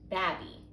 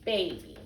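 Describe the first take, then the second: First: The first vowel is a short 'ah' sound. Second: The first vowel is a long 'ay' sound. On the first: The speaker calls it wrong. "if we try the short vowel sound and we say ah" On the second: The speaker calls it right. "then we should try the long vowel sound"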